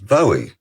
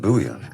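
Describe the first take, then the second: First: The name is said the non-Scottish way. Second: The name is said the Scottish way. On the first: "I always thought it was Bowie" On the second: "nobody in Scotland pronounces it like that. Pronounce it Bowie"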